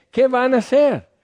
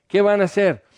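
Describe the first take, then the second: First: Much higher, scoffing question; God's mocking laugh. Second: Milder mocking echo. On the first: God scoffing at the plotting nations, high mocking question. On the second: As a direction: stress on "van", a bit higher, amused. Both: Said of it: "y Dios se ríe de ellos".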